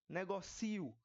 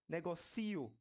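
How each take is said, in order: Both takes have the same delivery.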